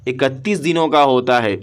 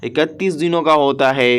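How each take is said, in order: Both takes have the same delivery.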